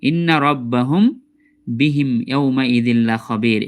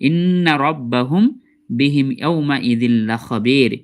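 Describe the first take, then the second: No difference in how they are said.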